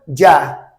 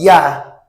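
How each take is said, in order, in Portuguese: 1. É dita com sotaque do espanhol latino-americano. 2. É dita com sotaque do espanhol castelhano.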